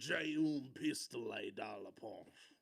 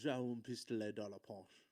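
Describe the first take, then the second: First: It is said in an exaggerated American cowboy accent. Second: It is said in a plain, unexaggerated way.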